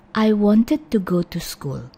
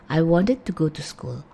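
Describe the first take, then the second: First: Slow, careful reading of wanted. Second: Quicker, reduced "wanted"; fast. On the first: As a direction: say "wanted" slowly with a full "id" ending. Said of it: "Kalau pelan-pelan". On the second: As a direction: run "wanted" together with a lighter "it" ending. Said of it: "kalau kita ngomongnya agak cepat". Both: Shown as a demonstration.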